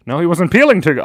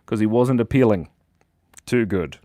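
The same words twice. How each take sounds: First: "appealing" punched, louder and higher; punchline repeated. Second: Said in the usual way. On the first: Shown as a demonstration.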